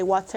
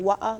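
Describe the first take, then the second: First: It is said with an American accent. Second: It is said with a British accent. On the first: "I say water" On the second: "you guys say water"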